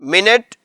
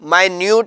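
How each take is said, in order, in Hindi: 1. इसे min-it कहा जाता है, पहले शब्दांश पर जोर है। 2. इसे my-nyoot कहा जाता है, दूसरे शब्दांश पर जोर है। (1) "इसका मतलब भी मिनट है जो कि वक्त को जाहिर करता है" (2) "स्पेलिंग मिनट वाले हैं लेकिन इसकी प्रोनाउंसिएशन माइन्यूट है"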